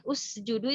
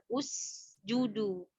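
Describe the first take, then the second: First: "usjudu" with a thickened, heavy s; sin tebal. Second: "Usjudu" slow and softer, clear u then a half-smiled s; setengah senyuman. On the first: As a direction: say "usjudu" with lips left pouting so the s thickens. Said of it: "itu sinnya jadi tebal". ("usjudu" dengan bunyi sin yang tebal) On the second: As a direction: round the u of "Usjudu", then slightly spread the lips for s. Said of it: "setengah senyuman saja". ("Usjudu" pelan, sin dengan setengah senyuman) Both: Shown as a demonstration.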